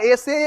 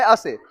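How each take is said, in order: First: "ऐसे" opening on a long "ay" vowel; contrasted pronunciation. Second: "असे" opening on a short "uh" vowel; contrasted pronunciation. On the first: Teacher separates two similar words, clear "ay" opening on "ऐसे". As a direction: say "ऐसे" like English "essay". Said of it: "ध्यान देना, एक होता है ऐसे". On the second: Teacher separates two similar words, short "uh" opening on "असे". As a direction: say "असे" like English "assay", short first vowel. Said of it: "एक है असे". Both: Shown as a demonstration.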